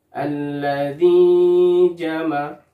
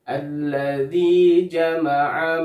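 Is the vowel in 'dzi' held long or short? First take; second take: long; short. First: The vowel in 'dzi' is held too long. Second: The vowel in 'dzi' is held two counts. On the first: The speaker calls it wrong. "dzi-nya terlalu panjang, melebihi dua harokat" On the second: The speaker calls it right. "dibaca panjang dua harokat"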